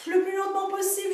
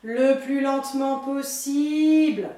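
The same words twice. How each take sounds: First: Said in the usual way. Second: Drawn out. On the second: Shown as a demonstration.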